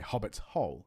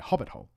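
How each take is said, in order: First: Both words carry stress. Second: Only the first word carries stress. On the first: It describes a hole belonging to a hobbit. "you put stress on both the hobbits and the hole" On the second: It is a familiar, established term. "you actually drop the stress on the on the second part of it"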